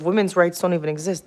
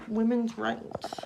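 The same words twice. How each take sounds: First: Said in the usual way. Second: Mock echo. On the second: Real, not acted. Bitter echo of her own words.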